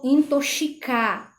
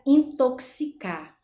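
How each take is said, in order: First: The x is pronounced as 'sh'. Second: The x is pronounced as 'ks'. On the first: The speaker calls it wrong. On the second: The speaker calls it right.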